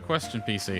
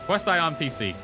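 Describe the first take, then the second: First: The first part is said as one word, question. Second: The first part is said as two words, quest on.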